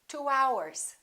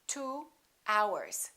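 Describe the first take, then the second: First: A w sound links the two words. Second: The two words are said separately.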